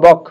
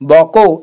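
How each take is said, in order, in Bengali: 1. শব্দটি ব্যঞ্জন k দিয়ে শেষ হয়। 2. শব্দটি o স্বরধ্বনি দিয়ে শেষ হয়।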